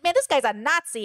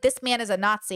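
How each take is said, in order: First: It is said in a joking, playful tone. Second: It is said in a serious, grave tone.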